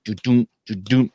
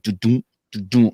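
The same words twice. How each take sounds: First: Slower do-doom heartbeat sounds, about to stumble; mouthing the flutter of a sick heart; irregular heartbeat imitation. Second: Even do-doom heartbeat sounds; a calm, regular heartbeat sound; heartbeat imitation. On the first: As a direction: mimic your own uneven heartbeat. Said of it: "My heart was like". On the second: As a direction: tap out a steady heartbeat with the voice. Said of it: "your heart is like". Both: Shown as a demonstration.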